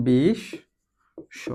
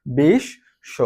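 First: বিশ্ব drawn out very slowly as বিশশো, with a doubled শ and no ব; বিশ্ব ধীরে ধীরে, বিশশো; slow dictation pronunciation. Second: Said in the usual way. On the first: Shown as a demonstration. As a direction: spell out বিশ্ব slowly as you write it, বিশ-শো. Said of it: "আমরা একটু উচ্চারণটা লিখে ফেলি". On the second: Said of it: "আমাদের উচ্চারণটা কেমন হচ্ছে?".

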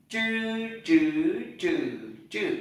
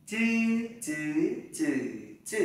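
First: "Chư" retroflex without air puff, through four tones; curled-tongue zh. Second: "Chư" as a dz-like ts without air puff, four tones; flat-tongue unaspirated z. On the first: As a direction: curl the tongue back on each "chư". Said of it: "Z H này". (đọc "chư" cuộn lưỡi, không bật hơi) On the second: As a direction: keep tongue straight on "chư", no burst. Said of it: "Z này". (đọc "chư" thẳng lưỡi, không bật hơi) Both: Shown as a demonstration.

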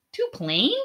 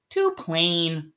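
First: "Too plain?" with a higher, rising questioning lift; puzzled question. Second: Flat, curt dismissal, voice dropping; dismissive verdict. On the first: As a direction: repeat it back in disbelief. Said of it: "Dihan asked". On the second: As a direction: brush it off coolly as not worth a look. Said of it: "Tian Yi said, looking away". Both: A narrator's reading.

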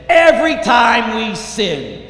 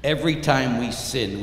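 First: High, loud and slow; fervent raised pulpit voice; impassioned preaching. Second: Said in the usual way. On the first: Real, not acted. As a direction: hammer the accusation home. Preacher at full force.

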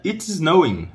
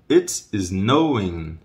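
First: Quick, high "It's snowing"; linked-up, higher-pitched delivery; natural speed. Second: Very slow "It's snowing"; drawn-out teaching pronunciation; slow model. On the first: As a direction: say it briskly in one go. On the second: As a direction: stretch each word for learners. Teacher slows the same phrase. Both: Shown as a demonstration.

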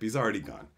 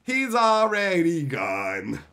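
First: Said in the usual way. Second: Slow, stretched lament; drawn-out mock lament. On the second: Shown as a demonstration. Streamer repeating the line as a slow mock lament. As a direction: stretch already mournfully.

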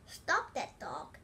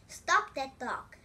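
First: Slow, firm shout to stop the dog; a king ordering his people after the dog. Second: Slow, much louder shout; the king's desperate, louder order. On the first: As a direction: call out each word slowly. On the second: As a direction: bellow each word slowly. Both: A narrator's reading. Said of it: "shouted the king".

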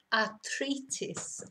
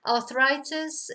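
First: "arthritis" as ar-TREE-tis, drawn out; Spanish pronunciation. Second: "Arthritis" as arth-RYE-tis, slow, higher and louder; English pronunciation. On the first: Teacher repeating the Spanish word, "arthritis" as slow ar-TREE-tis. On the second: Teacher contrasting similar words, "Arthritis" as slow English arth-RYE-tis. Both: Shown as a demonstration. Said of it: "pronounced completely differently".

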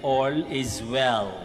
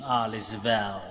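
First: Said in the usual way. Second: Light Bombay-style Indian English lilt; a gentle Indian film-style take on it; Indian accent. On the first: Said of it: "But actually, ibig sabihin ay". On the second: Retold or imitated. Priest repeating the film line in a mild Indian accent. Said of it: "kaya ganun yung intonation".

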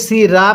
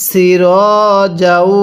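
First: "সিরা" with open "aa" ending; wrong open vowel. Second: "সির" read as "si-raw", long rounded ending; correct rounded vowel. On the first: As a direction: say "সিরা" quickly as "si-raa". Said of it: "সিরা পড়া যাবে না". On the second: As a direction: hold "সির" with an o-like final vowel. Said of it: "এটাকে সিরা পড়া যাবে না". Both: Shown as a demonstration.

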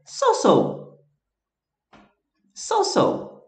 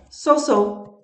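First: "So-so" drawn out higher, each syllable clear; slow repeat-after-me model. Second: "So-so" said slowly, higher, each syllable clear; teacher modelling "So-so" for repeating; model pronunciation. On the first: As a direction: say "So-so" slowly for the class to repeat. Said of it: "Repete aí". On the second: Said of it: "A forma como eu recomendaria". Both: Shown as a demonstration.

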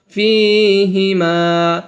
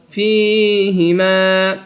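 First: ফিহিমা stretched, each vowel held; slow recitation. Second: ফিহিমা again, long and even; slow recitation repeat. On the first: Teacher slowly models ফিহিমা for class. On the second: Teacher repeats ফিহিমা slowly for students. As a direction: repeat it drawn out. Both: Shown as a demonstration. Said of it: "এক আলিফ টানিয়া পড়িতে হবে".

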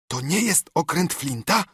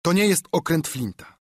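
First: To nie JEST okręt Flinta, with a rise at the end; question. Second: To NIE jest okręt Flinta, falling at the end; firm statement. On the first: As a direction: stress on jest, rising question. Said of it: "zapytał". (pytanie z akcentem na „jest”, intonacja rosnąca) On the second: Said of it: "odparłem bez wahania". (stanowcze stwierdzenie z akcentem na „nie”, opadające) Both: A narrator's reading.

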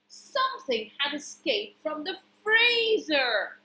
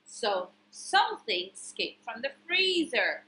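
First: Higher-pitched, suspenseful storytelling; big storybook alarm; dramatic reveal. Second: Said in the usual way. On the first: A narrator's reading. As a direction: announce the escape with drama. Dramatic narration, later repeated more plainly.

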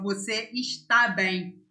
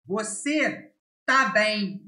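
First: Said in the usual way. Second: TÁ as one syllable, without the "es"; native short form. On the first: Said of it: "instead of". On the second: Shown as a demonstration. Teacher showing a native way of saying the verb, short form "tá". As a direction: shorten "está" to just "tá". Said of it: "It's a very native way of saying this verb".

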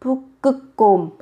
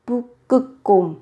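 The two takes are said the same way.

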